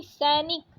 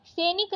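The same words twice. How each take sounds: First: Said in the usual way. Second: सैनिक said "se-nik", closed e; wrong vowel. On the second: Shown as a demonstration. Teacher rejecting a spelling, सैनिक with plain e. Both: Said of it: "सैनिक नहीं".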